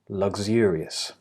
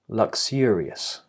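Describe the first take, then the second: First: The middle consonants are voiced, with vibration. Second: The middle consonants are unvoiced, without vibration. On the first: "if you're choosing the voiced version" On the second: "if you are doing the unvoiced version"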